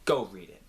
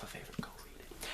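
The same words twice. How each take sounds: First: Said in the usual way. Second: Breathy secret whisper, no voice at all. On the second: Shown as a demonstration. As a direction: lean in and whisper the urge. Repeated urging, now whispered.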